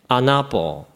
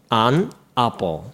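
First: The two words are linked together. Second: The two words are said separately. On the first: "つなげて" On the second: "区切って連続していってみましょう"

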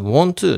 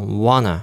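First: The t after the n is pronounced. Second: The t after the n is dropped.

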